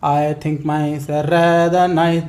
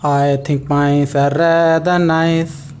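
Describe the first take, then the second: First: The line is said at a normal speed. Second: The line is said slowly and carefully.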